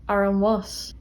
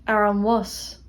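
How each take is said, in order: Both takes have the same delivery.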